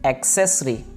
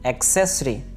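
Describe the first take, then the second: Both takes have the same delivery.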